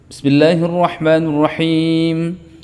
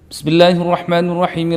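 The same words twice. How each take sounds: First: It is recited quickly but clearly. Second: It is recited even more quickly. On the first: "Saya contohkan bacaan Al-Qur'an yang hadr, ya, yang hadr, yang benar" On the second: "Dipercepat lagi boleh kalau misalnya kita mampu"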